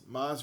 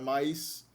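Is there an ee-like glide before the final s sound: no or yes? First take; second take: no; yes. First: No glide comes before the final consonant. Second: An ee-like glide comes before the final consonant.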